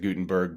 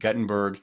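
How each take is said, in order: First: The name is said in the speaker's own way. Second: The name is said in the local Iowa way. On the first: This is how an outsider would say it. "I would pronounce it Gutenberg" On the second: This is how local people say it. "in Iowa they call it Guttenberg"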